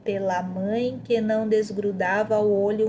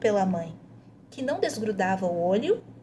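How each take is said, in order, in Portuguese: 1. Lê-se direto, sem pausa depois de 'mãe'. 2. Há uma pausa logo depois da palavra 'mãe'.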